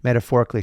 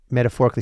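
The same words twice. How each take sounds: First: Said in the usual way. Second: Said fast through a laugh; quick laughing "metaphorically". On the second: Real, not acted. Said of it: "Metaphorically, she represents a".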